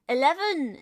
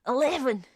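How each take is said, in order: First: Eleven said in standard English, plain and even; eleven, the way a posh Brit says it; English-accent eleven; posh British eleven. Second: Eleven said Scottish, louder, rolled and clipped; Scottish accent. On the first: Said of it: "is how I normally say it". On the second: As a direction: throw eleven out Scottish-style. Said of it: "this is how they say it in Scotland". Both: Shown as a demonstration.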